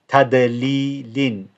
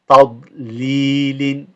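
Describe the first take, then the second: First: The d sound is a plain, light d. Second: The d sound is heavy, held deep. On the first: The speaker calls it wrong. "if it was a dal, it would be tadlilin, but it's not" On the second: The speaker calls it right. "you have to hold the dad"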